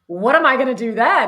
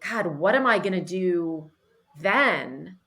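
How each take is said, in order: First: It is said in an excited tone. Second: It is said in a despairing tone.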